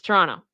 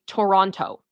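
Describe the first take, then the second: First: The second T sound is dropped. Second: The second T sound is clearly pronounced. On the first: The speaker is a native of Toronto. "they do not pronounce the second T" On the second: The speaker is not from Toronto. "but if you you aren't, you say Toronto"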